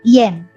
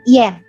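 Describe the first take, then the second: First: The vowel sounds like an 'e'. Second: The vowel sounds like an 'e'.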